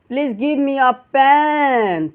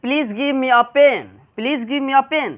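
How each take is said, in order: First: "pen" hugely stretched and higher; overlong vowel. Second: "pen" kept short, not stretched; short vowel. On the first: Student asking at a shop the wrong way, drawn-out "pen". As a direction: drag the e of "pen" out far too long. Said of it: "पेन नहीं कहना है". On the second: Teacher models the English sentence for students, short-vowel "pen". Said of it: "जल्दी पढ़ा जाएगा". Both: Shown as a demonstration.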